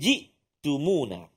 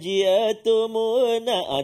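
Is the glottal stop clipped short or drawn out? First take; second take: clipped; drawn out. First: The glottal stop is clipped short with no vowel. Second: The glottal stop is drawn out with an added vowel. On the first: The speaker calls it right. "jadi kena hati-hati" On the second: The speaker calls it wrong. "ada lenguk-lenguk slang-slang dia"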